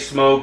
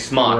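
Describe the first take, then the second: First: The vowel is long, rhyming with joke. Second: The vowel is short, rhyming with rock. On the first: The speaker calls it wrong. "we don't say smoke" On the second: The speaker calls it right. "we say Smock"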